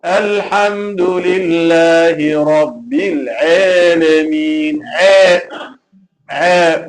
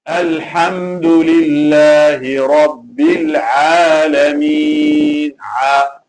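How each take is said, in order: First: Slow chanted "Alameen" with the long A bent to EH; mistaken imala. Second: Slow low chanted "Alameen" with an open long AA; correct recitation. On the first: Teacher imitating a mistake he heard, imala. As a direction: recite "Alameen" wrongly as "eh-lemeen", drawn out. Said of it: "they are doing imala". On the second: Teacher modelling the verse for students, correct open alif. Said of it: "So instead of saying". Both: Shown as a demonstration.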